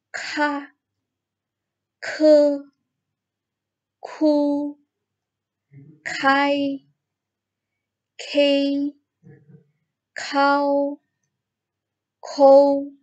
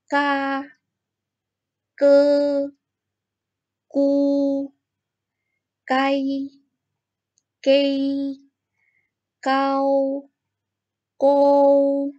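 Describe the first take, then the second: First: "Ka" to "kou" with a strong breath after the k, high level first tone; aspirated kh. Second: "Ka" to "kou" with an unaspirated k, high level first tone; pinyin g as k. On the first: Teacher showing students the aspirated k. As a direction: push a burst of air after each k. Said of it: "kita tambahkan dengan H". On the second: Teacher reading the g row to students, unaspirated and high. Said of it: "G itu dibaca seperti K". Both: Shown as a demonstration.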